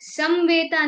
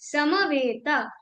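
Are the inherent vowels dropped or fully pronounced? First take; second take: dropped; fully pronounced. First: The inherent vowels are dropped. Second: The inherent vowels are fully pronounced. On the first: The speaker calls it wrong. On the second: The speaker calls it right.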